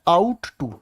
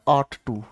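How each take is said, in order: First: The first word has an 'ow' vowel, like 'out'. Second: The first word has an 'aw' vowel, like 'caught'. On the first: The speaker calls it wrong. "बहुत सारे बच्चे ने इसको बोलते भी गलत हैं" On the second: The speaker calls it right. "इसको बोला जाता है आट टू"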